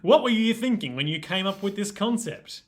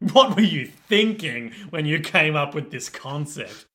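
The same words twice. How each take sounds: First: It is asked in a neutral, curious tone. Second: It is asked in a scolding, accusatory tone.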